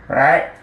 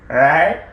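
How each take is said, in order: The two takes are said the same way.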